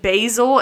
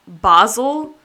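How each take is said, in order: First: Basil is said in an American way. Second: Basil is said in an Australian way.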